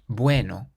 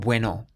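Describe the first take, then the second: First: The stress is on the first syllable. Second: The stress is on the second syllable. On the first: The speaker calls it right. "We stress the bue part" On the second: The speaker calls it wrong. "not bueno"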